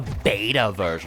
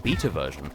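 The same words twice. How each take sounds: First: Beta is said with an American pronunciation. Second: Beta is said with a non-American pronunciation.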